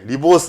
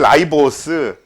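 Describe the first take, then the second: First: The first syllable sounds like 'ree'. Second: The first syllable sounds like 'rye'. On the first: The older form that used to be taught. "리보스 아니고" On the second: The newer form that follows the English pronunciation. "라이보스라고 배웁니다. 사실 영어 발음으로는 그게 맞거든"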